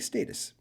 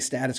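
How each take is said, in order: First: It is pronounced the European way. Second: It is pronounced the North American way. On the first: "People in, the, in Europe say status" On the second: "we say status quo here in North America"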